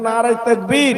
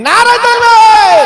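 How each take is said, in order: First: Louder crowd-leading slogan at usual pitch; loud takbir call. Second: Very high, loud, stretched-out yell; full-force takbir shout. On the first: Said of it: "জোরে তাকবীর দেন". (জোরে তাকবীরের ডাক) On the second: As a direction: scream the slogan for the crowd to answer. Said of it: "চিল্লে বলেন দেখি". (গলা ফাটিয়ে তাকবীরের চিৎকার) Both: Shown as a demonstration.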